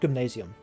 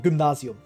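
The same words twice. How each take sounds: First: The word is pronounced the English way. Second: The word is pronounced the German way.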